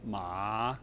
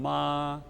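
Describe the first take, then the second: First: The pitch dips low and comes back up. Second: The pitch stays high and level. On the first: It means a horse. "The dipping tone" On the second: It means mother. "The level tone"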